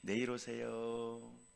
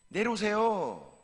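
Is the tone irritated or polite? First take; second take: polite; irritated. First: It is said in a calm, polite tone. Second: It is said in an annoyed, irritated tone. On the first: The refusal is gentle at first. "처음에는 점잖게 얘기하다가" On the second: The speaker is losing patience. "이런 불편한 투로 얘기했겠지요. 같은 말이라도"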